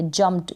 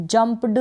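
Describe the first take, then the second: First: जंप्ड said "jumpt", ending in t; correct t ending. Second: जंप्ड said "jump-du", with voiced d; wrong d ending. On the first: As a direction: close जंप्ड on t, not d. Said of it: "यानी टी का sound आएगा". (जंप्ड के अंत में ट की ध्वनि) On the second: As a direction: sound a d after the p in जंप्ड. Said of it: "जंप्ड नहीं पढ़ेंगे". (जंप्ड के अंत में ड की ध्वनि) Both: Shown as a demonstration.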